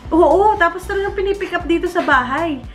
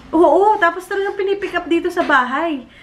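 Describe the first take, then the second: The two takes are said the same way.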